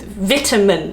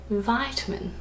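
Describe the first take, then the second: First: Vitamin as VIT-a-min, short i; crisp short first vowel in "vitamin", like "vit"; British vitamin. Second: Soft, slow vitamin as VY-ta-min; long-i vitamin. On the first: Vlogger comparing which flows, British vitamin. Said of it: "Sounds like smooth". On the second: Vlogger comparing which flows, long-i vitamin. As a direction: draw out the eye sound in "vitamin". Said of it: "it just doesn't flow". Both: Shown as a demonstration.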